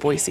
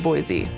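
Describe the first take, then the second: First: The middle consonant is a soft s sound. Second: The middle consonant is a buzzing z sound. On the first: This is how locals say it. The speaker calls it right. "we pronounce it Boise" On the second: This is how outsiders say it. The speaker calls it wrong. "instead of Boise"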